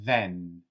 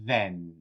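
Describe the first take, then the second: No difference in how they are said.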